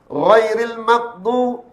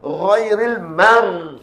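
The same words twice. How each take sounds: First: Ghairil maghdu- drawn out, tongue root falling so ghain slips toward kaf; slow Ghairil maghdu- with a lowered tongue root; wrong, tongue dropped. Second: Ghairil mar drawn out slowly, tongue root lifted on the ghain; raised sound. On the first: Teacher shows the letter turning into kaf, faulty demo. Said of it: "ah, tu terturun pangkal lidah". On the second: Teacher models lifting the tongue root, correct raised demo. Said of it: "dia bunyi meninggi". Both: Shown as a demonstration.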